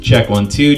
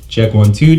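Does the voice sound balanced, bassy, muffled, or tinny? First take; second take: balanced; bassy. First: The voice sounds even, with balanced treble and bass. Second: The voice sounds boomy, with heavy bass. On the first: "that will give us a more balanced sound" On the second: "you're hearing a lot more bass"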